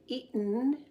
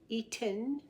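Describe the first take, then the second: First: The middle t sound is swallowed. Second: The middle t sound is fully pronounced. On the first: "most of the time we're going to say eaten. We kind of swallow that" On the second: "instead of saying eaten"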